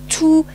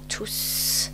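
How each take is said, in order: First: The word ends without any S sound. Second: The word ends with an audible S sound. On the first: The word is used as an adjective with a noun. "That's an adjective, and you don't pronounce it" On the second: The word is used as an adverb. "this is the adverb tous. Uh, and you have to pronounce the final S"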